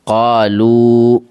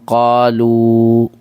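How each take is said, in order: The two takes are said the same way.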